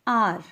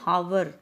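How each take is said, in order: First: It starts directly with a vowel sound. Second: It starts with an audible h sound. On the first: The speaker calls it right. "No, यहाँ पे हमें sound आ रही है आर" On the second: The speaker calls it wrong. "Silent means हमें एच की sound नहीं आ रही कि हावर"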